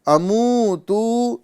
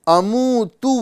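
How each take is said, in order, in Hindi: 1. अंतिम स्वर खींचकर लंबा किया गया है। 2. अंतिम स्वर छोटा और तेज़ है। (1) "इस तरह नहीं पढ़ेंगे" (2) "इसको हम जल्दी पढ़ेंगे"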